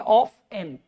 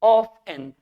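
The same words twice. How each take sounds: No difference in how they are said.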